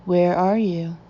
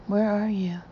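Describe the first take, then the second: First: Louder, demanding question; hard stern voice. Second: Gentle, coaxing question; soft voice. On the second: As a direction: ask it softly, coaxing. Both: A narrator's reading. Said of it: "switching from a soft to a hard voice".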